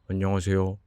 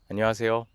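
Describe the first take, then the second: First: It sounds dull and not bright. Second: It sounds somewhat brighter and more relaxed. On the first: The speaker calls it wrong. "입꼬리를 내린 상태에서 제가 아무리 밝게 하려고 해도 밝게 안 돼요" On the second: The speaker calls it right. "입꼬리를 살짝 한번 올려보고 해볼게요"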